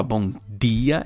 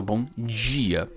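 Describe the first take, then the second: First: DIA with a plain tongue-tip D; hard-D dia. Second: DIA pronounced "djia"; palatal D dia. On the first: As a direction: say BOM DIA with no J sound. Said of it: "ao invés de falar". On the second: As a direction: say BOM DIA with a J sound in DIA. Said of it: "é mais comum falar". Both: Shown as a demonstration.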